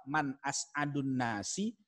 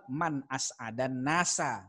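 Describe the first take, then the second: First: "as'adun" with u, slow and drawn out; "Man as'adun nasi" stretched, u in as'adun; question reading. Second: "as'adan" with a, slow and drawn out; "Man as'adan nasa" stretched, a in as'adan; answer reading. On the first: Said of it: "Jadi yang pertama". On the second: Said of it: "Yang kedua". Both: Shown as a demonstration.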